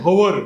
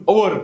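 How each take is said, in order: The two takes are said the same way.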